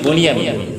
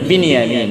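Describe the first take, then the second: First: The first syllable has an 'o' vowel. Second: The first syllable has an 'i' vowel. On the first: The speaker calls it wrong. "আমরা উচ্চারণ করি বনিয়ামিন" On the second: The speaker calls it right. "এটার বিশুদ্ধ উচ্চারণ হলো বিনিয়ামিন"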